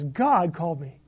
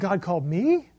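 First: The stress is on God. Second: The stress is on me.

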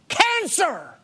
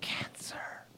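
First: The word is shouted loudly and forcefully. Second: The word is said quietly and weakly. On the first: The fear of the diagnosis dominated her thoughts. "she said it was screaming in my mind" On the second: The diagnosis had lost its power over her. "the word cancer was like this"

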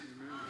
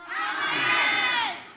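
First: It is said at a normal volume. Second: It is said louder still.

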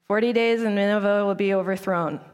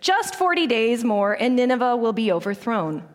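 First: It is mumbled under the breath. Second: It is said clearly, not mumbled.

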